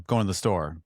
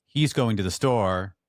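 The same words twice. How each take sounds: First: "Going to the store" with the opening "He's" swallowed; Philadelphia swallowed pronoun. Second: "He's" clearly spoken, words spaced out and louder; full pronoun. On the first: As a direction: drop the pronoun and run into "Going". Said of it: "we swallow our pronouns". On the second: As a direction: say "He's going to the store" slowly with "He's" fully sounded. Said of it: "like, we don't say". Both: Shown as a demonstration.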